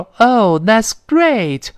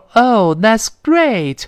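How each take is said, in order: First: It sounds genuinely pleased and enthusiastic. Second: The same.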